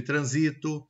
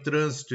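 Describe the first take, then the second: First: "transito" stressed on SI; "transito" with the beat in the middle; penultimate stress. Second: "trânsito" stressed on TRÂN; "trânsito" with the beat up front; antepenultimate stress. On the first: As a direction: say "transito" as "tran-SI-to". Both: Shown as a demonstration. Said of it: "Com a palavra acentuada ou não".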